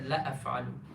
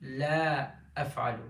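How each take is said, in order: First: The vowel in la is kept short. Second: The vowel in la is held long. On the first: It means I will definitely do it. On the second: It means I will never do it.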